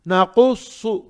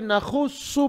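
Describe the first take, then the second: First: नकुस्सु with a back-of-throat q, never kh; correct qaf. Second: नखुस्सु with a scraped kh instead of q; wrong kh for qaf. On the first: Teacher models the word letter by letter, correct qaf. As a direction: say नकुस्सु with a true qaf and heavy sad. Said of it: "पहले तो खौफ देखेंगे". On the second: Teacher shows a learner's mistake, kh for qaf. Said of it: "wrong". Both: Shown as a demonstration.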